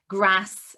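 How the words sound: It is said in a northern English accent. "I know that you're northern because you say grass"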